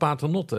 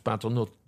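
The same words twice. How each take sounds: First: The final e of the name is sounded. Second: The final e of the name is silent. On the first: "maar het is gewoon Paternotte" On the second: "in Frankrijk is Paternotte met een stomme E. Dus"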